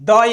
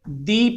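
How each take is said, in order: First: The vowel is a short 'uh' sound. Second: The vowel is a long 'ee' sound. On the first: The next word starts with a consonant. "ये B जो है consonant है" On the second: The next word starts with a vowel. "यहां जो है यह vowel से शुरू है, तो यहां पे इसे क्या पढ़ेंगे? दी पढ़ेंगे"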